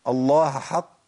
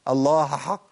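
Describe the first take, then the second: First: The h is merged into the following h. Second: The same.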